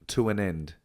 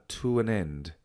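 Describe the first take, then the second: No difference in how they are said.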